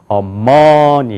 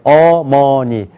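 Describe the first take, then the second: First: The stress is on the second syllable. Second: All syllables have equal pitch, loudness and length. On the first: "두 번째 여기가 강조가 있으면" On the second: "높이가 같아요"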